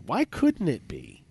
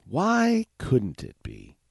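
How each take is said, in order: First: Slow rhetorical ask. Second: Drawn-out, wondering repeat; slow musing echo; slower rhetorical ask. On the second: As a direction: stretch the question longer. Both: Shown as a demonstration.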